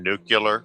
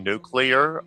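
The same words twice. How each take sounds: First: The word ends in a 'cular' sound. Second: The word ends in a clear 'clear' sound. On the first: The speaker calls it wrong. "I am so sick of people saying nuclear" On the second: The speaker calls it right. "The fact that you pronounced it correctly"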